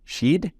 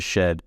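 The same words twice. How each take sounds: First: "Sheed" with the vowel raised to a long ee; high, questioning "Sheed", mimicking a New Zealand vowel; Rose Matafeo's shed. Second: Said in the usual way. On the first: Podcaster quoting how a comedian says shed, mimicked "Sheed". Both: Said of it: "the way she says shed".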